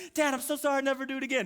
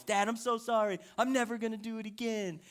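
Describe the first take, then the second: First: High-pitched mock wailing apology; hammed-up pleading daughter, high voice; imitating screaming, pouting child. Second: Mildly whiny mock apology from a kid; lightly voiced sulky child; imitating pouting child. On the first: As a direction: whine it like a kid mid-tantrum. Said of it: "because she was screaming". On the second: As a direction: plead like a pouting daughter. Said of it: "pouts the whole way".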